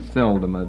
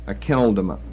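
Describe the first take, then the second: First: The second consonant is a soft S sound. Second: The second consonant is a hard K sound. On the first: "K J V may have a soft C pronunciation" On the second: "but Akeldama"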